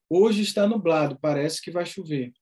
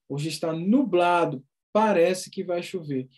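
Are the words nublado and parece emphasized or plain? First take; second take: plain; emphasized. First: No word in the sentence is given emphasis. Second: The words nublado and parece are emphasized. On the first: "se eu disser assim" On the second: "eu dei uma ênfase na palavra nublado e na palavra parece"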